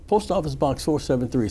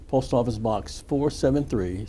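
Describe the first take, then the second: First: It is said at a quicker pace. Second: It is said at a slower pace.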